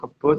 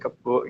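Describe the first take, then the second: First: The word ends in a plain vowel. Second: The word ends with an added k sound.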